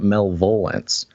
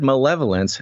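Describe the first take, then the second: First: The word is said with three syllables. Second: The word is said with four syllables. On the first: The speaker calls it wrong. "how would you m- mispronounce it malvolence?" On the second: The speaker calls it right. "If you've ever heard the word malevolence"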